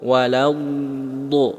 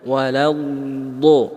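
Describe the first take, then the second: Both takes have the same delivery.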